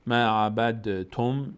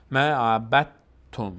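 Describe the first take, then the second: First: ما عبد تم as "ma abad-tum", d bounced; slow, with a separate voiced d before تم; heavy pronounced dal. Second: ما عبدتم as "ma abat-tum", d merged into t; slow, louder, with a firm doubled t in عبدتم; silent dal. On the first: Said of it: "مقداری تلفظش سنگینه". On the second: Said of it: "اصلاً دال رو تلفظ نمی کنیم". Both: Shown as a demonstration.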